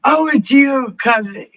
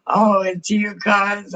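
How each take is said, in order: First: Much higher, much louder delighted cry; light up seeing Oh, it's you; excited greeting. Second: Higher, louder fond repeat after a laugh; warm greeting. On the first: Streamer spots cousin in chat, delighted shout. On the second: Streamer greets cousin again, fondly. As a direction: say Oh, it's you again, gentler and fond. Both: Real, not acted.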